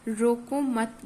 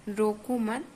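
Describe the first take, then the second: No difference in how they are said.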